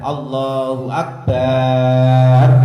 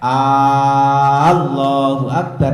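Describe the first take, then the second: First: The b sound in akbar is drawn out. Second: The opening vowel of Allah is drawn out. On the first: "tidak memanjangkan baknya akbar" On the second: "tidak memanjangkan hamzahnya lafaz Allah. Jadi ora oleh"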